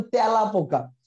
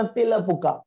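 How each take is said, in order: First: "তেলা" with wide ae, "tæla"; open ae vowel. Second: "তেলা" with tight e, "tela"; close e vowel. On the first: Teacher showing students the usual way, open ae vowel. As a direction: say "তেলা পোকা" the everyday way, with open ae. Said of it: "আপনি বলেন". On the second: Teacher showing students what nobody says, close e vowel. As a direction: read "তেলা পোকা" as spelt, with close e. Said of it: "আপনি কখনো উচ্চারণ করেন না". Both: Shown as a demonstration.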